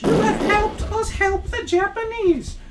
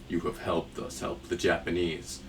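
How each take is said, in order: First: It is read in a cheerful cartoon-character voice. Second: It is read in a dark, ominous man's voice. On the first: The speaker calls it wrong. "maybe I shouldn't read this in the Happy Abby voice" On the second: The speaker calls it right. "the ominous freaking man behind the scenes"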